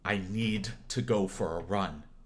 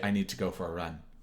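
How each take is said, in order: First: It is said with growing emotional weight. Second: It is said flatly, without emotional depth.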